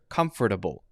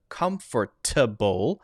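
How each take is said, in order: First: The middle consonant is a quick light D. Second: The middle consonant is a clear T sound. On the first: "you'll often hear comfortable" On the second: "instead of comfortable"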